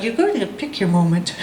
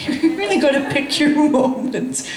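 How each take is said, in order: First: Said in the usual way. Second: Slow, laughing stress on really; wry moral of the story, slowed down; slow emphatic lesson. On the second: Shown as a demonstration. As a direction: lean on "really", drawn out.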